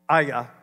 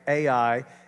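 First: The name is said with a guttural sound. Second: The name is said without a guttural sound. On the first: The speaker calls it right. "because Hebrew is a guttural language, it's Aya" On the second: The speaker calls it wrong. "I used to say AI"

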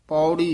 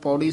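First: Each sound of the word is fully pronounced. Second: The word is said quickly and clipped. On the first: The speaker calls it right. "ਪੌੜੀ ਇਸ ਤਰ੍ਹਾਂ ਬੋਲਣਾ" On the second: The speaker calls it wrong. "ਕਈ ਵਾਰ ਪੌੜੀ ਸਿੱਧਾ ਬੋਲ ਜਾਂਦੇ ਹਾਂ"

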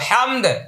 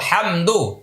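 First: The word ends on a bouncing stopped d. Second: The word ends with a short u vowel. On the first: "এখানে আমরা ওয়াকফ করে দালে জজম দিব" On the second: "দাল পেশ দু"

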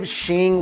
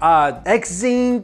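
First: The name begins with an sh sound. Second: The name begins with a ks then z sound. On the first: This is the name as said in Chinese. "that's how you pronounce it in Chinese because the X is S-H" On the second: This is how others misread the spelled name. "every time there was roll call, it was like"

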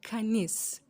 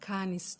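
First: The stress is on the second syllable. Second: The stress is on the first syllable. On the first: The speaker calls it right. "İkinci tarafta isim üzerinde tonuz" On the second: The speaker calls it wrong. "Kanis değil"

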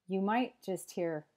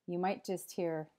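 No difference in how they are said.

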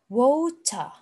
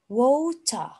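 First: It is said in a British accent. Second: It is said in a British accent.

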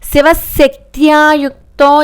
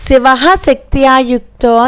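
First: The visarga merges into the next syllable. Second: The visarga is sounded clearly on its own. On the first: The speaker calls it right. "Shiva శక్త్యా రెండు కలిపి చదవాలి" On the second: The speaker calls it wrong. "Shiva శక్త్యాయుక్తో అని ఎప్పుడూ చదవకూడదు"

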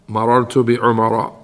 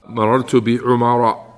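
The two takes are said the same way.

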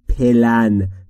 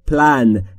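First: A vowel is added between the p and l. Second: The p and l run together with no vowel. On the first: The speaker calls it wrong. "عرض نکردیم پلن، چون بین پی و ال صدایی وجود نداره" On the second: The speaker calls it right. "پس تلفظ درست میشه پلان"

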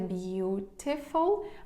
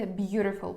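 First: The word is said in a non-American accent. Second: The word is said in an American accent. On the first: "Його можна вимовляти beautiful" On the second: "в американській вимові воно буде beautiful"

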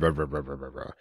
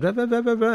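First: The voice is deep, as from a larger throat. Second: The voice is high, as from a smaller throat. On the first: A man is speaking. "he said" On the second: A woman is speaking. "she said"

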